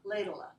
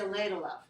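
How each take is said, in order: First: The v is dropped, leaving a short schwa. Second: The v at the end is clearly pronounced. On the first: "we can just put up, like a like a schwa" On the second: "we don't need to say ladle of"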